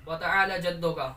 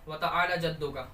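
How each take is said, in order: The two takes are said the same way.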